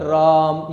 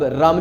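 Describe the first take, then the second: First: The vowel is held for a long time. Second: The word is said with a normal vowel.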